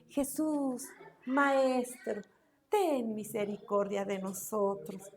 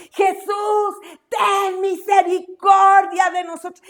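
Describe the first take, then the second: First: Soft, restrained call to Jesus; drawn-out, half-hearted cry for mercy; too-soft plea. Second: Raised, higher-pitched plea; anguished shout to Jesus, drawn out; crying out loudly. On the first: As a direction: plead politely without raising your voice. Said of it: "No, ¿verdad? Dice que gritaron a gran voz". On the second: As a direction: call out for mercy at full voice. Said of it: "Pero gritaron a, a gran voz". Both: Shown as a demonstration.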